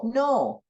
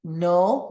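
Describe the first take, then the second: First: "no" the Spanish way, with a pure O; Spanish "no", one steady vowel; Spanish pronunciation. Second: "No" the English way, with a gliding O; English "No", rounded diphthong; English pronunciation. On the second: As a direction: say "No" as in English, O closing towards oo. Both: Shown as a demonstration. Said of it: "look very similar in English and Spanish".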